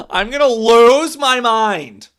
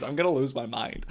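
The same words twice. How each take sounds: First: Loud, higher and slow yell of "lose my mind"; exasperated yell. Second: Said in the usual way. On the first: Real, not acted. Fan telling chat he is losing it, loud exasperated yell. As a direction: shout it like you're losing it.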